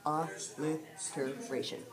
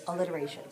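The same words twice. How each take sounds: First: "Alliteration" slowly, syllable by syllable; broken into syllables. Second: Said in the usual way. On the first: Shown as a demonstration. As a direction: sound out "Alliteration" in slow, separated parts. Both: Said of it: "Big word".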